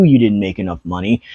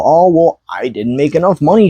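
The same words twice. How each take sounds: First: Said in the usual way. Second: Mocking whine. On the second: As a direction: parrot the excuse in a whiny voice. Mocking a complaining seller.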